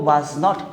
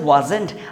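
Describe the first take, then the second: First: It is said as two full words. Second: It is said as one contracted word. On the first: The speaker calls it wrong. "was not তো ভুল হয়" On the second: The speaker calls it right. "লিখা আছে wasn't"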